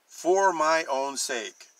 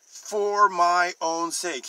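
First: Slow, stressed For my own sake; emphasized. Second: For my own sake higher, louder and slow; emphatic repeat. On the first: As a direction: say For my own sake slowly, each word weighted. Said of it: "He is emphasizing". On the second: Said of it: "He repeats it". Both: Shown as a demonstration.

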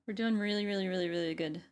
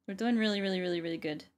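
No difference in how they are said.

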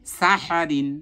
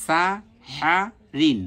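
First: সাহারিন run together as one word; joined together. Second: সা, হা, রিন each alone with a pause; syllable by syllable. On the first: Teacher reads the drilled syllables together, joined up. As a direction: read সাহারিন higher, without gaps. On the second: Teacher drills the syllables before joining, spaced apart. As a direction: spell out সা হা রিন piece by piece. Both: Shown as a demonstration. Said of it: "একসাথে ভালোভাবে উচ্চারণ করব".

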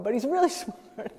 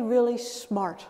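First: Laughing through the words; amused, breaking into a laugh. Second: Slow, drawn-out really smart; slow, lightly adoring really smart; slow mock praise. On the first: Real, not acted. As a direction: chuckle out really smart as a joke. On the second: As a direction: stretch out really smart like a smitten partner. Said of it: "as if you were describing your romantic partner".

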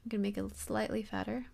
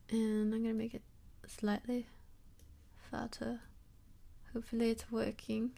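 First: Said in the usual way. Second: Put-on softly spoken British accent; British accent with dropped r's. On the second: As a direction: slip into a playful British accent. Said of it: "I have a British accent right now".

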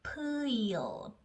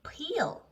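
First: Peel stretched slowly, sound by sound. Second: Said in the usual way. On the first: Shown as a demonstration. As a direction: glide slowly through peel, ending tongue behind front teeth. (peel을 길게 늘여 혀끝을 앞니 뒤에 붙이며) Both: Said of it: "우리 혀 끝을 앞니 뒤에 붙이면서".

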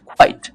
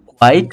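First: কোয়াইট with a puffed k, "khwite"; aspirated Q. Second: Said in the usual way. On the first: Shown as a demonstration. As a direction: burst air into কোয়াইট. (কোয়াইট-কে "খোয়াইট" উচ্চারণ) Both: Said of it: "খ এর মতো হবে".

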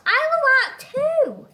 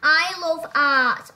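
First: I love art too in a much higher, louder squeak; high put-on voice. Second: Slow heavy I love art, leaning on I; slow emphatic. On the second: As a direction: say I love art slowly and louder. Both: Shown as a demonstration.

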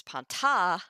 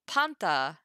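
First: Panta with the final syllable stressed and louder; stress on last syllable. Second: Panta with the first syllable stressed. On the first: Teacher imagines a different accent, panta stressed on the last syllable. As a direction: push the weight onto the end of panta. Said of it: "the accent mark was". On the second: Teacher shows students the accent, panta stressed on its second-to-last syllable. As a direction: hit the start of panta, let the end fall. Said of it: "it's on the second to last syllable". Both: Shown as a demonstration.

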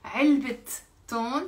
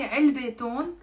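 First: "علبة تون" as 3elbit, pause, ton; linking t pronounced. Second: "علبة تون" as 3elbe ton, vowel ending on علبة; missing linking t. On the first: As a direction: model "علبة تون" with the t clearly sounded on علبة. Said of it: "pronounce the ت مربوطة". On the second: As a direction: show the mistake: "علبة تون" with no t linking the words. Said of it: "غلط". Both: Shown as a demonstration.

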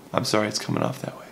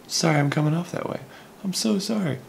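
First: Said in the usual way. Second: Much higher-pitched mock apology; insincere apology. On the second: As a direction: put on a squeaky-high fake "sorry". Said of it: "I'm actually not sorry".

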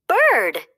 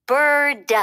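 First: "Bird" called out high with joy; excited fawn shouting "Bird"; shouted. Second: "Bird" said high and clear; "Bird" as a patient correction; correcting. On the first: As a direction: shout "Bird" thrilled at learning it. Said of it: "Bambi shouted". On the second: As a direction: model the word "Bird" brightly, pitched up. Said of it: "correcting him". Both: A narrator's reading.

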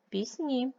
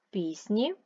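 First: Пісні with a long, higher -ні; stress on second syllable. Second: Пісні with a long, stressed Піс-; stress on first syllable. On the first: Teacher comparing two forms, second-syllable stress on пісні. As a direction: hit the last syllable of пісні. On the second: Teacher comparing two forms, first-syllable stress on Пісні. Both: Shown as a demonstration. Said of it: "Наголос може змінювати значення".

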